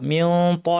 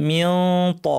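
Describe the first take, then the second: The two takes are said the same way.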